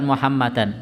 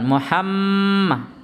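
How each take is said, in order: First: The m sound is short and not held. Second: The m sound is pressed, held and nasal. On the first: The speaker calls it wrong. "bukan Muhammadan" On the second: The speaker calls it right.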